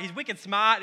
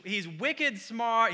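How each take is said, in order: First: "smart" said the Boston way as "smaht", with no r; a quick Boston twang on "wicked smart"; Boston accent. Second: Said in the usual way. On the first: Shown as a demonstration. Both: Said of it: "he's in Boston".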